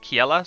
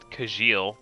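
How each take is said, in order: First: The name ends with a vowel sound. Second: The name ends with an l sound. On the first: The speaker calls it right. "I'm pretty sure it's pronounced Kiela" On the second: The speaker calls it wrong. "I did pronounce it Kajil because I'm just that basic"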